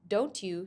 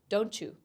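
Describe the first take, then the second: First: The two words are said separately and clearly. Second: The t and y blend into a ch sound. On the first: "the words" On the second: "sounds blend together, making a totally new sound"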